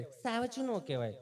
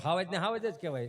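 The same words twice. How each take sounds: First: સાવજું said with a crisp s in a lightly higher, prim voice; સાવજું with a clean s, a touch of posh mockery; mock city pronunciation. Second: હાવજ with a breathy h sound; local pronunciation. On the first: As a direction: mimic the visitor's સાવજું. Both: Shown as a demonstration.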